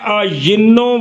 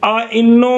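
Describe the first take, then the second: First: A y sound joins the two vowels. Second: A glottal stop separates the two vowels. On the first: "सानी को या से अयिन्नो" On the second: "आ इन्नो में एक मकसूर है"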